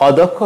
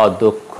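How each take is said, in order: First: অদক্ষ said the mistaken way; অদক্ষ as learners often mispronounce it; wrong pronunciation. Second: অদক্ষ said the right way; অদক্ষ clearly and correctly pronounced; correct pronunciation. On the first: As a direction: read অদক্ষ the naive way. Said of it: "হবে না". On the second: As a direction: model অদক্ষ for students. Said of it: "উচ্চারণ হবে". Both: Shown as a demonstration.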